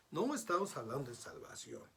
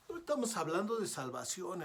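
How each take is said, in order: First: Said in the usual way. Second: Higher and louder, stressing estamos; a preacher's raised correction; emphatic. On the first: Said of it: "repeated point, calmer". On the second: Real, not acted. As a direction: hammer home "No estamos hablando de salvación". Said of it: "repeated point, stressed".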